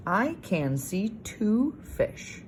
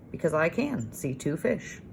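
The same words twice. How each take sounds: First: Slow reading with "two" lifted and stretched; stress on two. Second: Said in the usual way. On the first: Shown as a demonstration. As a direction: lean on "two" and read each word slowly.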